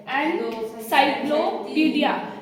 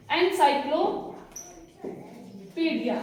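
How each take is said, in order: First: encyclopedia said slowly while counting its syllables. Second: encyclopedia drawn out slowly, syllable by syllable; slow syllable demo. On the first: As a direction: spell out encyclopedia slowly for the class. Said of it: "तीन आवाजें आ रही है". (Encyclopedia धीरे से, syllable गिनते हुए) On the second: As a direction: stretch encyclopedia out so each syllable is heard. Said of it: "तो इसमें कितनी आवाजें आ रही है?". (एनसाइक्लोपीडिया को धीरे-धीरे, हर सिलेबल अलग बोलना) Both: Shown as a demonstration.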